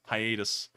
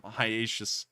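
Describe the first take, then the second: First: "hiatus" with a clear t, hy-AY-tus; corrected pronunciation. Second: "hiatus" slurred with a sh sound, like hy-AY-shus; slipped pronunciation. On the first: Streamer correcting a slip, "hiatus" carefully as hy-AY-tus. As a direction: say "hiatus" properly, a t and no sh. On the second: Streamer welcoming a returning viewer, fumbles "hiatus" as hy-AY-shus. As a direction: stumble on "hiatus", saying sh for the t. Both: Real, not acted. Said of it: "make sure to pronounce that correctly".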